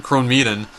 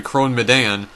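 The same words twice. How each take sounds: First: Crone Medan said "crone MEE-dun"; long "ee" in "Medan", with a weak ending; alternative guessed pronunciation. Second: Crone Medan said "crone muh-DAN"; guessed pronunciation. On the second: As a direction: stress the end of "Medan", with an open "dan". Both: Real, not acted. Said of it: "I really don't know how to pronounce it".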